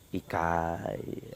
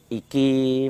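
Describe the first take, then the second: First: The last vowel is an 'eye' sound. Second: The last vowel is a plain 'ee' sound. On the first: This is the Osing dialect form. "menjadi ikai, ada seperti itu tambahan itu" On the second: This is the standard Javanese form. "berbeda dengan bahasa Jawa"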